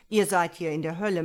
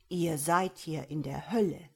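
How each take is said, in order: First: Loud, fast devil's rebuke; growling devil. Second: Louder but measured, weighty echo; remembered devil's words. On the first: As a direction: rap it out as an impatient devil. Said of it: "Um seinem Knurren Nachdruck zu verleihen". (knurrender Teufel, laut und schnell) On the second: Devil's words echo in her memory. (bedeutungsschwer nachhallend) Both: A narrator's reading.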